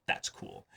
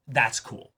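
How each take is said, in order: First: Breathy whisper under his breath; a hushed echo of what he just said; whispered aside. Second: Said in the usual way. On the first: Real, not acted. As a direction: whisper it to yourself, almost secretly. Repeats the remark to himself.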